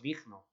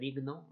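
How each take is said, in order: First: The g is a harsh, throaty j-like sound. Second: The g is a plain soft g sound. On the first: "hacer una J más fuerte" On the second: "en vez de digno"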